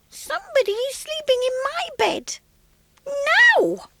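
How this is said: It is said in a small, squeaky voice.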